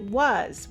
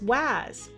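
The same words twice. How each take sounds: First: The vowel does not sound like cat's 'a'. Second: The vowel sounds like the 'a' in cat. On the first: The speaker calls it right. "we actually pronounce it was, which doesn't follow the rule" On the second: The speaker calls it wrong. "they might try to sound it out as was"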